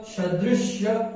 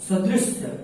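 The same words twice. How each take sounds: First: सदृश्य slowly, with a clear "sh" before "ya"; correct pronunciation demo. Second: सदृश्य with a plain "s" in the last syllable; सदृश्य said as "sadrisya"; wrong pronunciation demo. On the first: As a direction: end सदृश्य on a drawn-out "shya". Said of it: "यानी कि ये सही है". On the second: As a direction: end सदृश्य on "sya", not "shya". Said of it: "ये गलत है". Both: Shown as a demonstration.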